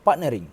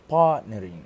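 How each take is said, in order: First: "partnering" with a short "ah" in "part"; shortened vowel. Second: "partnering" with a long held "paah" at the start; long vowel. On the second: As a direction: stretch the first vowel of "partnering". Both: Shown as a demonstration. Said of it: "the long vowel R".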